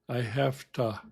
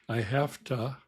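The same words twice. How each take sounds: Both takes have the same delivery.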